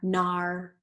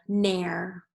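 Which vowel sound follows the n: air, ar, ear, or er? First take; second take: ar; air. First: The vowel sounds like ar in car. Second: The vowel sounds like air in hair. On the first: "let's try it with R" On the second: "let's try it with air"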